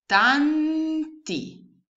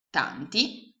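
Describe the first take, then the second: First: Louder, higher "Tanti" split as TAN-TI; syllable by syllable. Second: Said in the usual way. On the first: Shown as a demonstration. ("Tanti" scandito) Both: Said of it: "Quindi la frase che voi avete costruito".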